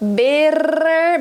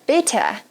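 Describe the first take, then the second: First: The middle T is a quick tongue-tip tap. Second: The middle T is not a tongue-tip tap.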